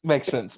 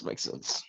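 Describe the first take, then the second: First: Said in the usual way. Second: Makes sense whispered under the breath; whispered repeat. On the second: Real, not acted. Player to the table, whispering makes sense to himself. Repeats the same words twice.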